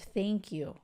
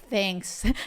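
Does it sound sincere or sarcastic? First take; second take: sincere; sarcastic. First: It sounds sincere and heartfelt. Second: It sounds sarcastic and insincere.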